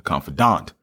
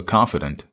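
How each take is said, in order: First: Confidant said with a full -dahnt ending; corrected stress. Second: Confidant said KON-fi-dunt, last syllable reduced; wrong stress. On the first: Real, not acted. Host repeating the co-host's correction of the word, carefully. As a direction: confidant with the last syllable clearly said as -dahnt. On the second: Retold or imitated. Host stumbling over the word in a book discussion, stressing it wrong. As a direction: confidant with the ending swallowed to -dunt. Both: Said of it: "wrong emphasis on the wrong syllable".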